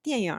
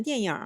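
First: 电影 with a curled r sound on the end; everyday northern-style r-coloured final on 电影; erhua ending. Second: Said in the usual way. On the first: Shown as a demonstration. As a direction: say 电影 as diànyǐngr, rhotacised. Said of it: "뒤에 얼화음을 추가해서 평소에는". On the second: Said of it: "뒤에 얼화음을 추가해서".

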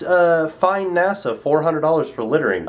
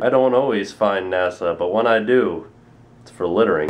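First: Said in the usual way. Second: Deep ad-parody voice. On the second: Pretend. Mocking a famous ad slogan with a low, suave voice. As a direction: deliver it like a smug commercial tagline.

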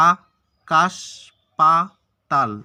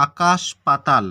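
First: আকাশ পাতাল cut into four firm beats with pauses; syllable by syllable. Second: Said in the usual way. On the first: Shown as a demonstration. Teacher showing what is pronounced in each go, syllable by syllable. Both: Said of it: "একবার আ উচ্চারণ হবে".

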